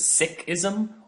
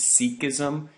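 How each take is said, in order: First: Sikhism is said with the traditional pronunciation. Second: Sikhism is said with the common American pronunciation. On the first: This is the older, traditional way to say it. "more traditionally, uh, the tradition is referred to as Sikhism" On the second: This is how most people in the United States say it. "the more common pronunciation in the United States is Sikhism"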